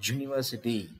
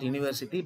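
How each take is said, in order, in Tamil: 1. இந்த வார்த்தை மெய்யொலியுடன் தொடங்குகிறது. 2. இந்த வார்த்தை உயிரொலியுடன் தொடங்குகிறது. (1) "it does not have a vowel sound" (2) "It is not university"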